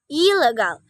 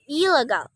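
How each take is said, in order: First: The prefix ends with an L sound. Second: The same.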